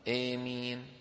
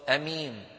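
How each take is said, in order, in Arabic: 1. الحركة الأولى طويلة وتميل نحو الكسرة. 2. الحركة الأولى قصيرة ومفتوحة. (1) "بالإمالة مع المد" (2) "والثانية بالقصر"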